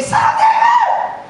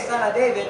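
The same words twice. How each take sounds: First: Piercing all-out holler; shouted cry. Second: Said in the usual way. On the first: Shown as a demonstration. Preacher shows how the blind men called Jesus, shouting. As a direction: scream it out very high, loud and stretched. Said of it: "they were shouting, they were crying out". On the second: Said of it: "You don't say".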